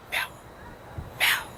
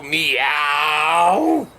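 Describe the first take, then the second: First: Short, clipped broken meows; two stunted little mews; strange cat meow. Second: A lightly voiced, long drawn-out meow; a low, lazy cat's meow; ordinary cat meow. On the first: Retold or imitated. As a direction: meow like a cat that can't quite talk. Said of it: "But that cat would go". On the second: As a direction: meow like any normal cat. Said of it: "most cats go".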